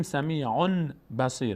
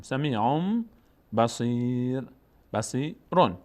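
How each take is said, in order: First: سمیعون بصیر with a clear n ending سمیعون; wrong n reading. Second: سمیعون as sami'omm, then بصیر slowly; n turned to m. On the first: Teacher shows what not to say, سمیعون بصیر with plain n. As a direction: keep the n in سمیعون before بصیر. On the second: Teacher models the reading, سمیعون with held m, then بصیر. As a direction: hum an m at the end of سمیعون before بصیر. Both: Shown as a demonstration.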